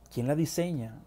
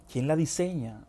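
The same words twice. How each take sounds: The two takes are said the same way.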